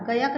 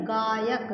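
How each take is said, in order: First: गायक said "guh-yuk", first vowel short; short-vowel mispronunciation. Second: गायक said "gaa-yuk", first vowel long; long-vowel pronunciation. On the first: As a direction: shorten the aa in गायक to a quick schwa. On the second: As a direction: hold a long open aa in गायक. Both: Shown as a demonstration. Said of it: "गायक नहीं है".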